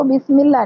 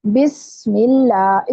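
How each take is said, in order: First: बिस्मिल्लाह quickly, with a dull S lacking its whistle; wrong S sound. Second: बिस्मिल्लाह slowly, with a thin whistled S; whistling seen. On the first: Teacher shows a common mistake, quick dull S. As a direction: rush बिस्मिल्लाह without sharpening the S. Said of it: "वो तो सा की sound है". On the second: Teacher models correct recitation, slow whistling seen. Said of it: "सीन को सीटी की sound के साथ पढ़ें". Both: Shown as a demonstration.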